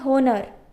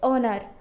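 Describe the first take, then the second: First: The word begins with an audible h sound. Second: The word begins with a vowel, h silent. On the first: The speaker calls it wrong. "we can't say honor" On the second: The speaker calls it right. "It's honor"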